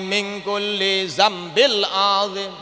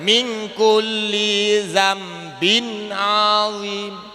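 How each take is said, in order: First: The word before azim ends in an L sound. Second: The word before azim ends in an N sound. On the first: The speaker calls it wrong. "Kan salah ya" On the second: The speaker calls it right. "Yang butuh bagaimana?"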